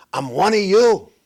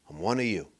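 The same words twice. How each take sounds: First: Louder, proud mock Harris line: I'm one of you; mock proud claim. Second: Softer, lower mock aside: I'm one of you; mock confiding. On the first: Mocking Harris to his audience, louder and proud. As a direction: belt out a fake claim of belonging. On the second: Mocking Harris to his audience, softer and sly. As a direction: drop it to a sly murmur. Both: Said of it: "She decided to say".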